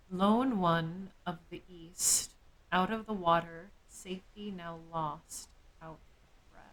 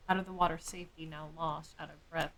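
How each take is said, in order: First: Slow, grave recital fading to a breathless whisper; slow ominous poem recital; dramatic poem reading. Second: Said in the usual way. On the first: Shown as a demonstration. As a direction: read it like an ominous verse, trailing to an unvoiced end.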